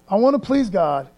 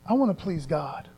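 First: Firm resolve. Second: Softer, inward vow; soft resolve. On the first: Speaker modeling a believer's vow, declared firmly aloud. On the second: Speaker modeling a believer's inner vow, softly. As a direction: say it quietly to yourself first. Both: Shown as a demonstration.

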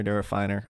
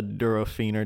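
First: "Durofiner" said duro-FINE-er; alternative pronunciation. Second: "Durofiner" said duro-FEE-ner; tentative pronunciation. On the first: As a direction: give "Durofiner" a long i, as in "fine". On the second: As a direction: give "Durofiner" an "ee" in the third syllable. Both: Real, not acted. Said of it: "however you say that".

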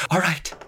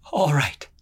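First: Shaky voice. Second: A touch of shaking fear, falling; shaky voice. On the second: She stalls the brute, voice shaking slightly. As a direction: say it quickly to cover the hinge. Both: A narrator's reading. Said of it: "Her voice shook".

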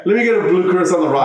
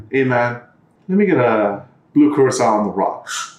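First: Higher, quick repeat of the order; animated, fast imitation of a customer; amused retelling. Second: Understated, straight-faced imitation of a customer; dead serious. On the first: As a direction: rattle off the quote in amused disbelief. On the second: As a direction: order it with total seriousness. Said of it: "dead serious".

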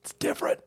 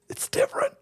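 First: Breathy, secretive whispered aside. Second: Much higher, pinched cartoon squeak; squeaky high voice. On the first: Acted. Host answering himself in a mock debate, whispered. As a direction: hiss it like a secret. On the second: Host answering himself in a mock debate, squeaky high voice.

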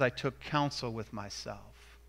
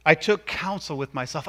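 First: Softer, lower, thoughtful I took counsel with myself; quiet and reflective. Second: Said in the usual way. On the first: Shown as a demonstration. Preacher explaining Nehemiah's restraint, quiet and reflective. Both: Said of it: "he took some time to think about it".

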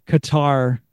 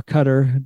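First: Qatar said kuh-TAR; Qatar with a long, stressed final "tar"; stressed second syllable. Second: Qatar said CUT-er; Qatar with a short, reduced second syllable; stressed first syllable. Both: Shown as a demonstration. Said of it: "depends on how you wanna say it".

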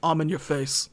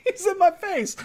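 First: Lightly voiced low tough guy; low Vin Diesel voice. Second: High, defensive whine; high Brian voice. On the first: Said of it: "And Vin goes". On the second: Retold or imitated. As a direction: raise the pitch, protesting. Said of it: "Brian gets pushed away and he goes".

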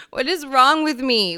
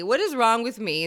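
First: Louder, throwing up hands; exasperated exclaim. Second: Said in the usual way. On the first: Real, not acted. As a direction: exclaim it in dismay. Exclaims at herself.

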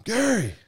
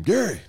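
First: Even higher, louder desperate call; louder yell. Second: Loud, high call across the house; yelling a name. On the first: Calling father-in-law a second time, a louder and higher yell. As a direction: shout it with everything you have. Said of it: "And I yell one more time". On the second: Calling out to father-in-law in the dark, loud high yell. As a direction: shout for help from the next room. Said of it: "So I just yell his name". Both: Retold or imitated.

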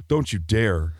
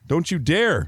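First: Said in the usual way. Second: Don't you dare, pitched up high; higher mock warning. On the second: Real, not acted. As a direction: raise the pitch in mock outrage. Repeated warning, rising.

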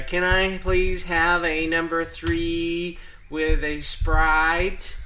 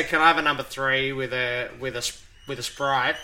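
First: Loud, slow, higher-pitched fake American accent. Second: Natural Australian accent, slightly raised voice. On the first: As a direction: put on an exaggerated American accent to be understood. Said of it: "put on a fake American accent". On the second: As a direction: order in your own Australian accent. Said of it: "speak in my Australian accent". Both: Shown as a demonstration.

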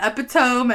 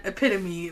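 First: Epitome as "EP-ih-tome", rhyming with home; misread pronunciation. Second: Epitome as "uh-PIT-uh-mee"; correct pronunciation. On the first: Co-host summing up her two versions, misread pronunciation. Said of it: "I thought spelled out". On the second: Co-host summing up her two versions, correct pronunciation. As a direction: say epitome in four syllables, stress on PIT. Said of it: "I knew the word". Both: Shown as a demonstration.

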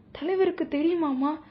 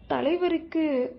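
First: தலைவருக்கு stressed, then rising fearful தெரியுமாமா; higher, anxious rising question; trembling question. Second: Slow, falling தலைவருக்கு, higher and hesitant; trembling hesitation. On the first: Deputy asking the mother if the leader knows, trembling rise. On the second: Deputy dreading to ask about the leader, slow trembling தலைவருக்கு. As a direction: stall fearfully on தலைவருக்கு before the question. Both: A narrator's reading. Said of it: "நடுங்கிய குரலோடு கேட்டார்".

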